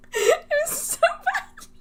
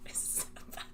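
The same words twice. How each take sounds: First: Much higher and slow, rising at the end; a high whine of embarrassment; high drawn-out wail. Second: Soft whisper, almost no voice; a hushed confession. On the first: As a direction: stretch it out in a high, mock-anguished wail. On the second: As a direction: whisper it in mortified disbelief. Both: Real, not acted. Reliving embarrassing talk.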